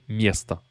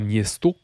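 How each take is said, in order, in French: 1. La voyelle finale est réduite à un son 'a'. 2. La voyelle finale est un 'o' plein. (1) "mais miesta" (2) "ça se prononce pas miesto"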